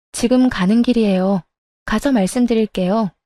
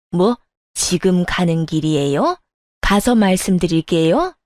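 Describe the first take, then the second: First: Said in the usual way. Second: Indignant elder mimicking a reply; mocking echo. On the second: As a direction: throw the words back as scornful questions. Mother-in-law throws the answer back.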